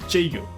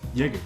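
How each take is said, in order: First: The name is said with an anglicized pronunciation. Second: The name is said with its native pronunciation. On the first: The speaker calls it wrong. "the Jaeger isn't pronounced as Jaeger" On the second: The speaker calls it right. "it's Jaeger"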